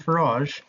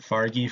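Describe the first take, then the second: First: The name ends with a soft 'zh' sound. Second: The name ends with a hard 'gee' sound. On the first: The speaker calls it right. "Do you mean Farage?" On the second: The speaker calls it wrong. "I pronounced it Fargy for the longest time"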